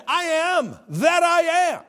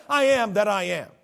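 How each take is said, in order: First: Slow, loud, high "I am that I am"; solemn slow declaration; slow proclaimed I am. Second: Said in the usual way. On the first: Shown as a demonstration. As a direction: drag out "I am that I am" with weight. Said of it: "He said". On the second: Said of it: "who said".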